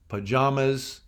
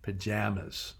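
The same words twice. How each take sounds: First: It is said with an East Coast pronunciation. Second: It is said with a Midwest pronunciation. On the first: "In the East Coast, pajamas" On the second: "in the Midwest, pajamas"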